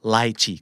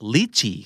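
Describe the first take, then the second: First: The first syllable has an eye vowel. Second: The first syllable has an ee vowel. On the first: "ไลชีก็ได้" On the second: "อ่านได้2, อย่างลิชีก็ได้"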